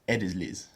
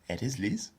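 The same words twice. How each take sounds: First: The pitch falls at the end. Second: The pitch rises at the end. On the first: It tells her that she is Liz. "I'm telling her she's Liz" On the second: It asks whether she is Liz. "That's a question, because the intonation goes up"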